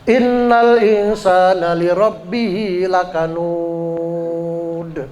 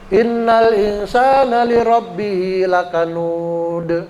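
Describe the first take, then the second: First: The final long vowel is held six beats. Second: The final long vowel is held four beats. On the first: "Enam harokat"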